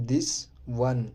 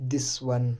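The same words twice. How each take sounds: First: This, pause, then one said apart; teacher spacing out this ... one; word by word. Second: Said in the usual way. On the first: Shown as a demonstration. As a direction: separate this and one with a clear gap. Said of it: "teacher splits it word by word". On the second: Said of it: "teacher models the phrase".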